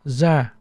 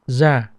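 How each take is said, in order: First: The word begins with a z sound. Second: The word begins with a z sound.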